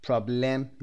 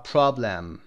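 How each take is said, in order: First: Problem as "prob-LEM", full e in the second syllable; wrong full-vowel pronunciation. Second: Problem as "PROB-ləm", weak second vowel; correct schwa pronunciation. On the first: Teacher showing how not to read it, full second vowel. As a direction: sound out a clear "lem" in problem. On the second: Teacher modelling the right reading, schwa pronunciation. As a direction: stress the start of problem and reduce the end to schwa. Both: Shown as a demonstration.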